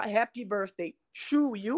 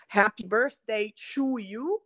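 First: To com T aspirado, sem chiado; T inglês. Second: To dito com T de tchu, como em "chu"; T brasileiro. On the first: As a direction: pronuncie to com T limpo e solto. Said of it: "você tá falando". (to com T inglês, sem tch) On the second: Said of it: "quando você fala assim". (to com T africado, aportuguesado) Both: Shown as a demonstration.

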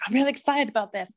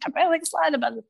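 First: Quick, lightly excited self-quote; eager, hurried little announcement. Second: Fast, high-pitched gushing; hammed-up, breakneck excitement, pitched well up; excited. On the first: Retold or imitated. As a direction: rattle it off with a touch of excitement. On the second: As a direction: gush it out in a rush to everybody. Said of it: "but I will tell everybody".

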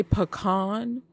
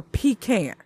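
First: "pecan" said puh-KAHN; pronunciation option. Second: "pecan" said PEE-can; pronunciation option. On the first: Host polling listeners on pronunciation, "pecan" as puh-KAHN. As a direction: say "pecan" as puh-KAHN, second syllable stressed. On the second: Host polling listeners on pronunciation, "pecan" as PEE-can. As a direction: say "pecan" as PEE-can, first vowel long ee. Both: Shown as a demonstration.

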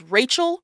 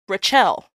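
First: Said in the usual way. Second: Rachel said as ra-CHEL, stress on the end; loud ra-CHEL, falling at the end; wrong stress. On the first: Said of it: "calling somebody whose name is Rachel". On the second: Shown as a demonstration. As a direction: misstress Rachel on its second syllable. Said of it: "whose name is Rachel".

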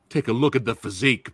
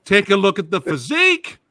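First: Said in the usual way. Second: Loud, high showman call; hype announcer. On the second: Real, not acted. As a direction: sell him to the crowd. Host hyping a guest.

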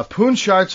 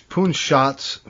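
First: "Poon Shots" with an R slipped in, like "sharts"; slip of the tongue. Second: Said in the usual way. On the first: Real, not acted. Co-host fumbling a tag team's name, "Poon Shots" said as "Poon Sharts". Name slips, then gets corrected.

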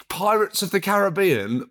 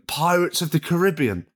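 First: Usual Caribbean, third syllable stressed. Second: Imitated ca-RIB-ee-an pronunciation; Caribbean stressed on RIB. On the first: Shown as a demonstration. Co-host giving film title, Caribbean stressed on BE. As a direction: say Caribbean as ca-ruh-BEE-an. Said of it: "That is not the official Pirates". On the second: Co-host imitating someone overheard, Caribbean stressed on RIB. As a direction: hit the second syllable of Caribbean. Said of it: "I heard someone called".

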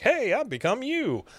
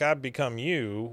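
First: Much higher, sing-song delivery; cheerier rephrasing. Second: Said in the usual way. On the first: Retold or imitated. [name] showing Luann a nicer way to say it, high and cheery. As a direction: lift it way up, as if it were good news. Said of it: "could have said it more like". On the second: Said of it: "you said it like".

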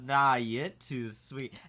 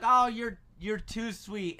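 First: Low, slow mock Southern sweet talk; flirty Southern woman. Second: Higher pitched, bashful thanks, lightly acted; politely flattered. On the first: Waitress flirting back at the customer, imitated low drawl. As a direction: imitate her turning the compliment back, drawn out. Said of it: "And she goes". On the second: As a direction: brush off a compliment politely. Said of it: "I was like".

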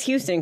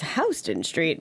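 First: Said in the usual way. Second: Houston Street said HOW-stun Street; "Houston" with an OW first vowel; wrong GPS pronunciation. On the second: Retold or imitated. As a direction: say "Houston" to open like "house". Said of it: "says Houston Street".

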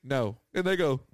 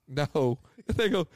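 No difference in how they are said.

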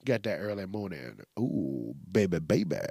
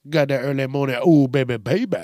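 First: Low, soft morning rumble; early-morning voice. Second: Louder playful repeat, lifting at the end; playful early-morning voice. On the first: Host showing off the too-early voice, low morning croon. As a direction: sink into a low, quiet just-woke-up voice. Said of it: "what's wrong with my voice". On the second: Host repeating the early-morning voice bit, louder and playful. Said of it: "It's still got that". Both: Shown as a demonstration.

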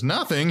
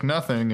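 First: Higher-pitched, disbelieving echo of "Nothing"; mock incredulity. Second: Said in the usual way. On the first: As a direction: throw "Nothing?" back in disbelief. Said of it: "And J Money says". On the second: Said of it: "Ramona's like".

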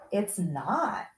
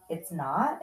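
First: "not" said with a falling, final tune; firm contradiction. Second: "not" lifted at the end as a question; questioning echo. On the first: Mother correcting her reassuring son, firm falling "not". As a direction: state it as settled, dropping on "not". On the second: Son questioning his mother's answer, puzzled rising "not". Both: Retold or imitated.

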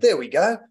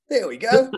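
First: Said in the usual way. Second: High, exaggerated Australian "There we go"; Australian accent. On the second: Aussie podcast guest mimicking a welcome home, high Australian accent. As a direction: sing out "There we go" like a homesick Aussie. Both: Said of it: "just hearing the accent".

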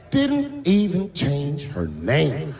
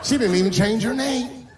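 First: "Didn't" stressed, whole line said very slow; "Didn't even change her name" said very slow, hitting "Didn't"; slow emphatic repeat. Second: "She" hit hard, rest of the line higher; "She didn't even change her name" with weight on "She"; stress on she. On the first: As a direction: lean on "Didn't" and drag out the rest. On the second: Complaint said twice. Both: Acted.

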